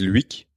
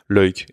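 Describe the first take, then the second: First: It is said with a French reading. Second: It is said with the Flemish pronunciation. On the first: The speaker calls it wrong. "certains Français qui ne connaissent pas le flamand disent Luik" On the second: The speaker calls it right. "Ça se prononce euh, Loïc"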